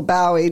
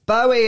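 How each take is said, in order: First: Bowie said as BOW-ee, first syllable like "now"; alternative pronunciation of Bowie. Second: Bowie said as BOH-ee; first pronunciation of Bowie. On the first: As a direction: say Bowie with an "ow" as in "wow". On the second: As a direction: say Bowie with a long "oh" in the first syllable. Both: Shown as a demonstration. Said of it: "depending on how you want to say it".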